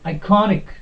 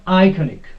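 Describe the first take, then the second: First: The stress is on the second syllable. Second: The stress is not on the second syllable. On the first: The speaker calls it right. "The correct pronunciation of this word is iconic" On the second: The speaker calls it wrong. "not iconic. No, that is wrong"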